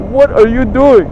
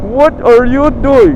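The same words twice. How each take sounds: First: Higher, louder outraged question; exasperated. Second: Slow, high, loud outraged question; exasperated, drawn out. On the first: Fed-up buyer confronting the seller, exasperated. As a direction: demand it in quick exasperation. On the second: Fed-up buyer confronting the seller again, slowly exasperated. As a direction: stretch each word in angry disbelief. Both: Retold or imitated. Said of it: "that really pissed me off".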